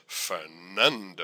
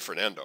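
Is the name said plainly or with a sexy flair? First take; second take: sexy flair; plainly. First: The name is said with a sexy, flirtatious flair. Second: The name is said in a plain, ordinary way. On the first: "A little bit of a sexy twist on it" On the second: "I don't say Fernando"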